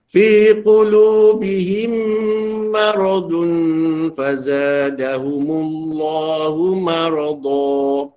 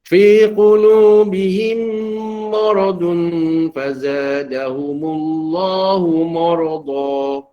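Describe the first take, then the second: First: The 'ma' is said with spread lips, open. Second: The 'ma' is rounded so it sounds like 'mo'. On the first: The speaker calls it right. "sepatutnya ma. Ya, kekalkan, lebarkan bibir" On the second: The speaker calls it wrong. "ma dia bunyi mo"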